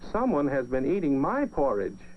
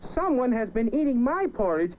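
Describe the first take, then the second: First: It is said in a middle-sized voice. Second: It is said in a tiny, small voice.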